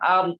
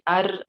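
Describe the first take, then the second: First: The r has no trill at all. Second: The r is trilled only slightly. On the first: "atau bahkan hilang ar" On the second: "ataukah sedikit ar"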